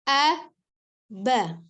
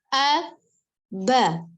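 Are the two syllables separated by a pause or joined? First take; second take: separated; separated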